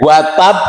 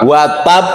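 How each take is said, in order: The two takes are said the same way.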